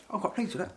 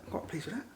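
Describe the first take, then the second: First: Pleased. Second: Quiet echo. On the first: Reacting to result. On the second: Echoing himself. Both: Real, not acted.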